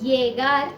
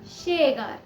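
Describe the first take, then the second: First: The word begins with a y sound. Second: The word begins with a sh sound. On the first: This is how some regions say it. "कुछ जगहों में इसे य प्रोनाउंस किया जाता है" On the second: This is how still other regions say it. "कुछ जगहों में इसे श भी प्रोनाउंस किया जाता है"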